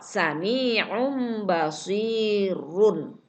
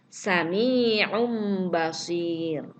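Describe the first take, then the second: First: The last word ends with a short vowel sound. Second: The last word ends on a silent r sound. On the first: The reading continues without stopping. "Kalau tidak wakof" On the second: The reader stops at this word. "Karena wakof"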